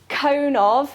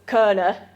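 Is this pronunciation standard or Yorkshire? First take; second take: standard; Yorkshire. First: Said in a standard accent, clearly as two words. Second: Said in a Yorkshire accent, merged into one word.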